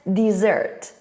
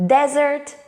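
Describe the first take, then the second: First: DESSERT stressed on SERT, falling at the end; stress on second syllable. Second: DESERT stressed on DES, rising pitch; stress on first syllable. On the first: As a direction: say "dessert" as dih-ZERT, second syllable strong. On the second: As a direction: say "desert" as DEZ-ert, first syllable strong. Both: Shown as a demonstration. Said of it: "the stress, first syllable and second syllable".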